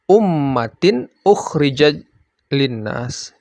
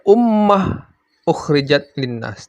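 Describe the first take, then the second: First: The first word ends with a t sound. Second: The first word ends with an h sound. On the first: The speaker calls it right. "kalau diteruskan" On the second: The speaker calls it wrong. "tidak dibaca"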